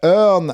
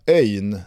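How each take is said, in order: First: It is said in plain standard Swedish. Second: It is said with a Gotland dialect diphthong.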